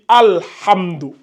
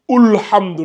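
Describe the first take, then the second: First: The word begins with an a vowel. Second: The word begins with a u vowel. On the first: The speaker calls it right. "Non, on dit Alhamdou" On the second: The speaker calls it wrong. "ou Ulhamdou"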